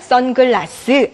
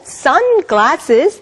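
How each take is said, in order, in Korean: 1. 한국식 발음으로 말합니다. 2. 영어식 발음으로 말합니다. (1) "그냥 선글라스 아니고" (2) "영어식 발음"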